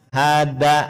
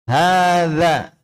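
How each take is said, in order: First: The middle consonant is a hard d sound. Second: The middle consonant is a soft th sound. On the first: The speaker calls it wrong. "Dan bukan seperti dal. Hada, hada, salah" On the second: The speaker calls it right. "supaya benar pengucapannya za"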